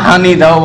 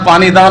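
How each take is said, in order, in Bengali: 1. আঞ্চলিক উপভাষা, "h" ধ্বনি দিয়ে শুরু। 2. প্রমিত বাংলা, "p" ধ্বনি দিয়ে শুরু। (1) "নোয়াখালীর ভাষায় ডাকেন" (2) "পানি দাও না বলে"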